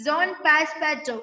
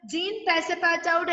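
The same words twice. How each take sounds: First: "സോൺ പാസ്പാറ്റോ" with final -to, no -out; French name pronunciation. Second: "ജീൻ പാസപ്പാറ്റൗട്ട്" with jeen and a final -out; as spelt. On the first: Teacher showing how the name is really pronounced, French name pronunciation. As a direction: say "സോൺ പാസ്പാറ്റോ", starting zone. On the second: Teacher quoting the written name to students, as spelt. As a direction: read "ജീൻ പാസപ്പാറ്റൗട്ട്" letter by letter as English, jeen. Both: Shown as a demonstration. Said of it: "pronounce ചെയ്യുന്നത് എങ്ങനെയാണെന്ന് ഇവിടെ പറഞ്ഞിട്ടുണ്ട്".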